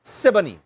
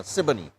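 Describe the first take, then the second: First: Said in the usual way. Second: "Siboney" rattled off quick and low, no lag; said fast. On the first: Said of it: "You had to say it kind of fast". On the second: Shown as a demonstration. Showing how locals say the name, "Siboney" fast and low. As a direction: clip "Siboney" short and quiet. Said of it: "You had to say it kind of fast now".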